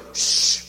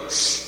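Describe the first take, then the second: First: An unvoiced, hurried shh standing in for the poem; a shushed poem rattled off; mock hush. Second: A short shh for a poem; poem read down the phone as a hush; mock hush over the phone. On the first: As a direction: breathe out a quick shh for the whole poem. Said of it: "you go". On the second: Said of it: "And you go".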